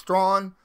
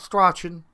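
First: The name sounds like 'straw' plus an n. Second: The name does not sound like 'strawn'. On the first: The speaker calls it right. "It's like straw, but with an N at the end of it" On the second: The speaker calls it wrong. "Not Strachan"

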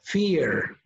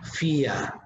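First: It is said with an American accent. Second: It is said with a British accent.

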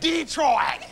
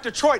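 First: It is said the way locals pronounce it. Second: It is said the way outsiders pronounce it. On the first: The speaker calls it right. "It's Detroit" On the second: The speaker calls it wrong. "It's not Detroit when you're from there"

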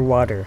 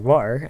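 First: The middle T sounds like a soft D. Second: The T in the middle is dropped. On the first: "As Americans and Australians say" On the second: "as I usually say"

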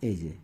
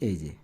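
Both takes have the same delivery.

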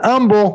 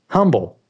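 First: The word begins with a vowel, no H. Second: The word begins with an H sound. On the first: The speaker calls it wrong. "But they pronounced it humble. / Without the H" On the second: The speaker calls it right.

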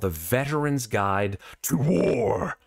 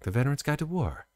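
First: The title is said in a harsh tone. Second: The title is said in a kind tone. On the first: The speaker calls it wrong. "I probably shouldn't say it like that" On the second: The speaker calls it right. "say it very kindly"

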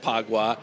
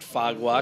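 First: The name is said the West Indian way. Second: The name is said the American speaker's own way. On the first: "I think West Indians pronounce it Phagwah" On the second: "I pronounce it Phagwah because it's P-H"

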